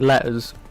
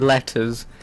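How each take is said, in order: First: The t sounds in the middle are dropped. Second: The t sounds in the middle are clearly pronounced. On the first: "we don't pronounce all the letters like T" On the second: "we don't say letters"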